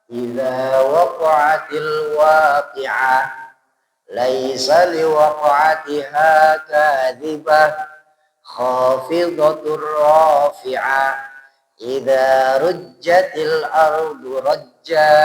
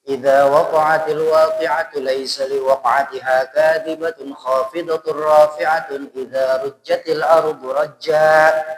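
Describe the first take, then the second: First: The verses are recited slowly. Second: The verses are recited quickly. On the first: "Kalau yang lambat" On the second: "Itu yang cepatnya"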